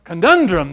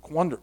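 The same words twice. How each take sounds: First: "Conundrum" said loud and full, "ke-NUN-drum"; clear retry. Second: "Conundrum" mumbled as "cwundra"; fumbled word. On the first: Preacher finding the word, "Conundrum" said loud and clear. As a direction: nail "Conundrum" clearly, loudly. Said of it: "There we go". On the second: Preacher losing the word "Conundrum", mumbled try. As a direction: stumble over "Conundrum", half swallowed. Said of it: "What is that word?". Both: Real, not acted.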